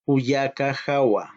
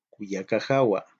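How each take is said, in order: First: Kuyaka jawa said slowly with weight on kuyaka; teacher modelling Kuyaka jawa slowly; slow model pronunciation. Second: Kuyaka jawa said again, lower, at normal pace; plain repeat. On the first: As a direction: sound out Kuyaka jawa for learners. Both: Shown as a demonstration. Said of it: "Es mi hermana".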